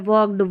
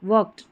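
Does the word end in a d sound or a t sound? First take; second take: d sound; t sound. First: The ending is pronounced as a d sound. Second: The ending is pronounced as a t sound. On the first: The speaker calls it wrong. "इस डी को देख के ड पे जोर दिया जाता है" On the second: The speaker calls it right. "ट का साउंड रहता है"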